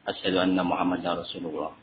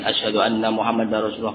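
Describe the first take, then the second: First: It is said softly. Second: It is said loudly.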